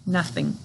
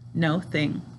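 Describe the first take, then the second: First: The first syllable is a short 'nuh' sound. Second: The first syllable is a long 'no' sound. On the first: This is how it is said in everyday speech. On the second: This is said to help with spelling.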